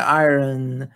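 It has a slight R sound, American style.

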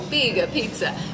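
It is said in an exaggerated Italian accent.

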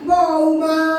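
The name is called out harshly and loudly. The speaker calls it wrong. "আপনি ওরম গরম করে ডাকলে"

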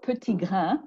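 It is said with a French-style pronunciation.

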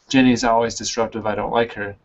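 The voice runs on after 'disruptive'. The speaker calls it wrong. "Not ... Doesn't make sense"

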